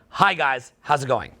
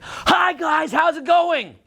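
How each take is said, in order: First: It is said lively but controlled and stable. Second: It is said wildly, with exaggerated energy.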